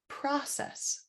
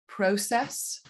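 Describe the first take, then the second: First: American pronunciation, first vowel not an O diphthong. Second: British pronunciation, first vowel an O diphthong. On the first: "in the States that changes to process" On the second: "in the U K with an O diphthong"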